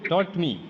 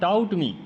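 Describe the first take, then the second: First: The vowel sounds like 'aw' in law. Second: The vowel sounds like 'ow' in cow. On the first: The speaker calls it right. "Mahi correct" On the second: The speaker calls it wrong. "It's not टाउट me"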